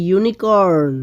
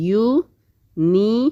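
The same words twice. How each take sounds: First: Said in the usual way. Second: unicorn slowly split as ইউ, নি, corn; in three parts. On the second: Shown as a demonstration. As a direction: stretch unicorn syllable by syllable. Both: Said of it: "এই তিনটা পার্টে আমরা এটাকে বলতে পেরেছি".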